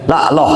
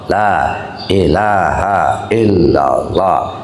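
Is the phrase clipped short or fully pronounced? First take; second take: clipped; full. First: The phrase is clipped, with sounds dropped. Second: The phrase is said fully and carefully. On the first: The speaker calls it wrong. "berkurang hurufnya" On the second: The speaker calls it right. "yang sempurna tartil"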